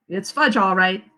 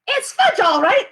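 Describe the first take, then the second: First: Said in the usual way. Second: Put-on much higher, louder little-kid copy of "It's fudge, all right"; toddler echo. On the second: Fudge to his mother echoing his brother, high toddler voice. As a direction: parrot it back as a gleeful small boy. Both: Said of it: "my brother repeated".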